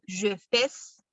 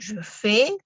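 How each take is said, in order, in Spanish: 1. La S final se pronuncia. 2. La S final es muda. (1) "yo no digo je fais" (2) "sino simplemente je fais"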